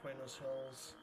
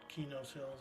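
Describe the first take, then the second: First: The name begins with a 'kw' sound. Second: The name begins with a plain 'k' sound.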